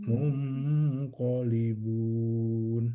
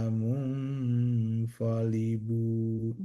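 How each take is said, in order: Both takes have the same delivery.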